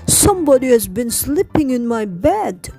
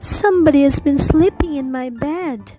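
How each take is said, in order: First: It is said in a deep, growly voice. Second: It is said in a quiet, gentle voice.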